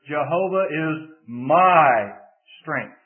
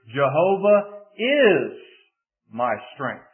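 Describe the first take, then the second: First: The word my is stressed. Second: The word is is stressed. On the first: The strength is personal to the speaker. "if you shift the emphasis to the third word" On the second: The strength is present right now. "if you shift the emphasis to the second word"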